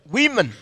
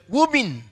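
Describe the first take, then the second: First: The first syllable sounds like 'wih'. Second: The first syllable sounds like 'woo'. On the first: The speaker calls it right. "我的孩子说不是…很多女人叫做 women" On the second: The speaker calls it wrong. "她的老师说…两个、三个、四个女人叫做 woman"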